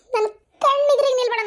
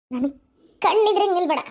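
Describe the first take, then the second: First: Louder, higher, upset outburst; distraught angry shout. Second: Firm, angry order at usual pitch; stern dismissal. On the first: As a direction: drive her away, voice raised high. Repeats order, escalating. (ಸಂಕಟ, ಸಿಟ್ಟಿನಿಂದ ಕೂಗುವುದು) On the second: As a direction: order her away with force. Mother sends daughter out of sight. (ಸಿಟ್ಟಿನ ಗಟ್ಟಿ ಆದೇಶ) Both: Acted.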